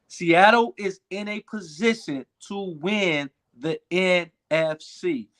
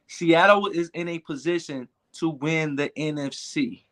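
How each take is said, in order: First: It is said louder, with extra force. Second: It is said with ordinary force.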